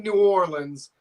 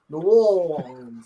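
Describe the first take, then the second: First: It is said plainly, without a put-on accent. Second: It is said with an accent and a rounded O. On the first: "I say New Orleans" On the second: "kind of a little accent to say New Orleans, New Orleans, and kind of get that round and uh, O"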